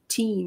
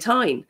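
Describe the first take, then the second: First: The vowel sounds like 'ee'. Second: The vowel is a diphthong like 'eye'. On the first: This is the form taught to students. "I would often try and teach my students teen or tin" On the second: This is the speaker's native local dialect form. "but I would automatically say tine"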